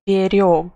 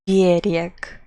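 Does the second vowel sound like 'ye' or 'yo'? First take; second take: yo; ye. First: The second vowel sounds like 'yo'. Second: The second vowel sounds like 'ye'. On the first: He kept something safe. "If I pronounce it with letter yo" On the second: A shore, like a seashore. "if I pronounce it with letter ye"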